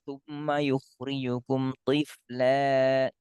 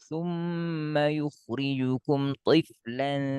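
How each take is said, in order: First: The last word ends on a vowel, no n. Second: The last word ends with an n sound. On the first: The reciter stops after this word. "Kalau berhenti betul" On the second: The reciter continues into the next word. "Tapi kalau disambung"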